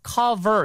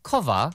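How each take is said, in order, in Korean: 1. 마지막 r은 분명히 발음돼요. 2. 마지막 r은 빠지고, 모음으로 끝나요. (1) "당연히 영국식 발음이니까 cover 이렇게 들리지 않고요" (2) "R 발음을 갖다가 모음처럼 발음하면 영국식 발음이에요"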